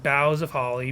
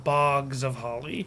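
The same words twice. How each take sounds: First: "boughs" said like bows of a tree, /baʊz/; "boughs" with an ow sound, no g; boughs rhymed with cows. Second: "bogs" said with a short o and a hard g, like swamps; slow, spell-out "bogs" with a hard g. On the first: Host recalls how they always said "boughs" with an ow sound. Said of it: "meaning B O W". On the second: Host contrasts the spelling by saying "bogs" with a hard g. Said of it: "it's spelled bogs of holly". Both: Retold or imitated.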